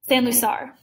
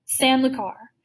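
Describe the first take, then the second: First: "San Lucar" with an s sound in Lucar. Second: "San Lucar" with a hard k in Lucar. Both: A narrator's reading. Narrator retakes a place name.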